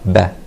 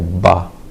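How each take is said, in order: First: The b sound is said soft. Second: The b sound is said hard. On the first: The speaker calls it right. "The ba is always soft" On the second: The speaker calls it wrong. "We don't say ba"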